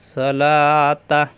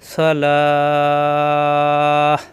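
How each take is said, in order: First: The word ends with a t and vowel. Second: The word ends in a stopped h sound. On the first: The reciter continues without pausing. "না থামলে তখন হয়ে যাবে সলাতা" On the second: The reciter pauses at this word. "এখানে মনে মনে সাকিন ধরে সলাহ"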